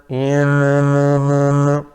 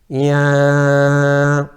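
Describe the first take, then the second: The two takes are said the same way.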